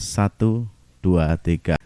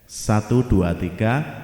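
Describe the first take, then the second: First: The low frequencies are boosted. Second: An audio effect is added to the voice. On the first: "Kemudian low-nya" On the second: "Saya berikan efek"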